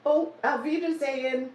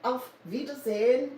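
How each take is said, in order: First: A playful German goodbye in a German accent. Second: German accent, lifting on Wiedersehen; a careful German-accented farewell; German accent, rising at the end. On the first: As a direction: say it like a German, brightly. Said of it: "How's my accent". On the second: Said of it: "try to talk with a good German accent". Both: Shown as a demonstration.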